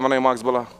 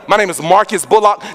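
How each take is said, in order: First: The name is said casually and mumbled. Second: The name is said crisply and clearly. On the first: The speaker does not care if the name is remembered. The speaker calls it wrong. "I wasn't like" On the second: The speaker wants the name remembered. The speaker calls it right. "No, no, no"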